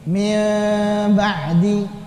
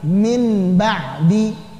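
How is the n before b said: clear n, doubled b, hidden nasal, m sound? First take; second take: hidden nasal; clear n. First: The n is hidden with a nasal hum. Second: The n is pronounced clearly before the b. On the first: "ini cara baca ikhfa begini" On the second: "Idhar dulu"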